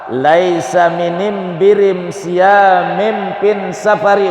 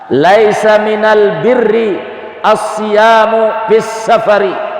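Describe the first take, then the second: First: Tribal dialect, with the article pronounced 'am'. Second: Standard Arabic, with the article pronounced 'al'. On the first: "dengan logat Bani Tamim" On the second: "dengan bacaan fusha"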